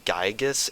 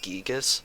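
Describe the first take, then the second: First: The first vowel sounds like 'eye'. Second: The first vowel sounds like 'ee'. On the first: The speaker calls it wrong. "someone say Gygus instead of Gigas" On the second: The speaker calls it right. "I always pronounce it with E instead of I"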